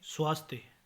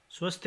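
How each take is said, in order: First: Said in the usual way. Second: स्वस्थ with short a, ending -ye; mispronunciation. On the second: Shown as a demonstration. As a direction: say svas-thya for स्वस्थ. (स्वस्थ को स्वस्थ्य बोलें) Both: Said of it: "नहीं".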